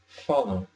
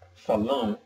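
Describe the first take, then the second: First: The stress is on the first syllable. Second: The stress is on the last syllable. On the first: The speaker calls it right. "the stress is on the second to last syllable" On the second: The speaker calls it wrong. "instead of saying"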